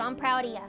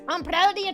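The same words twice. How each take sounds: First: It is said in the speaker's ordinary accent. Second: It is said in a put-on Scottish accent.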